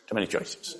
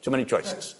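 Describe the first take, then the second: First: Whispered under the breath. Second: Said in the usual way. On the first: Shown as a demonstration. Preacher overwhelmed in the sauce aisle, whispering to himself. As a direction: breathe it out like a defeated aside.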